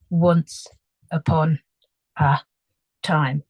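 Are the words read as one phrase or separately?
separately. Each word is read separately, one by one. The speaker calls it wrong.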